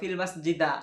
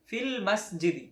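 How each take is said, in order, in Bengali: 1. শেষ শব্দটি a স্বর দিয়ে শেষ হয়। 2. শেষ শব্দটি i স্বর দিয়ে শেষ হয়। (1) "এরকম না" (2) "শেষে জের দিয়ে দেয়"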